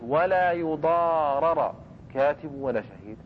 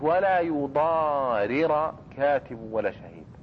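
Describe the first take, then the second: First: The second r of the verb takes an a vowel. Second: The second r of the verb takes an i vowel. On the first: The writer or witness suffers the harm. "الكاتب والشهيد هم الذين حصلت لهم مضرة" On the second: The writer or witness causes the harm. "من هو الآن المضار اللي يصدر منه الضرر؟"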